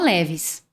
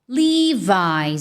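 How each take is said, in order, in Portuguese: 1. É dito com pronúncia do português brasileiro. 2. É dito com pronúncia natural do inglês. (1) "muita gente no Brasil fala Levi's" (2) "no inglês, o natural, na verdade, é Levi's"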